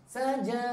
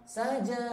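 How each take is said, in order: No difference in how they are said.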